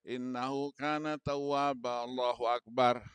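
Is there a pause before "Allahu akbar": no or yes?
no. The final phrase follows at once, without pause. The speaker calls it wrong.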